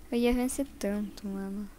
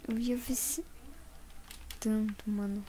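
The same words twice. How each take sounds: First: Said in the usual way. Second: Whispering. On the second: Real, not acted. Repeats the same words whispered.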